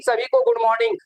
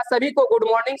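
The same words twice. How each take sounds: First: Much higher sing-song good morning; bright high greeting. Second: Said in the usual way. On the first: Real, not acted. Teacher greeting students in the online class, high and cheerful.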